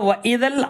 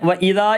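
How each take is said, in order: First: The vowel is short and links to the next word. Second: The final vowel of idha is lengthened. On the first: The speaker calls it right. "അപ്പം അങ്ങനെയല്ല" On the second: The speaker calls it wrong. "വ ഇതാ എന്ന് വായിക്കാൻ പാടില്ല"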